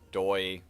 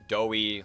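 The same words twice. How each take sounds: First: The name is said to rhyme with toy. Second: The name is said to rhyme with Joey. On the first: "Doi like toy" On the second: "Doi like Joey"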